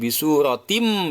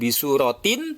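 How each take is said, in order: First: The word ends with a nasal m sound. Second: The word ends with a clear n sound. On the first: The speaker calls it right. "tapi bisuratim, langsung masuk suara mim dan dengung" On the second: The speaker calls it wrong. "bukan bisuratin"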